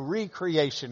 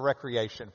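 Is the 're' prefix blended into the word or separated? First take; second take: separated; blended. First: The re prefix is stressed and set apart. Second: The re prefix is blended into the word. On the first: Creating something again. "we need to emphasize it" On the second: Leisure activity. "or it just reads recreation"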